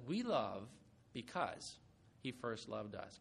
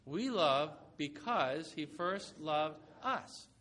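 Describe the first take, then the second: First: Low, soft scripture quote; softly quoting John before the congregation repeats it; quiet quote. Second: Slow, word-by-word unison reading; slow recitation. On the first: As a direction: read it softly and low, as a first take. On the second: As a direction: lead the congregation through it slowly. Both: Shown as a demonstration. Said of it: "Can you say that with me?".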